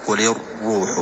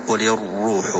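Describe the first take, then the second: No difference in how they are said.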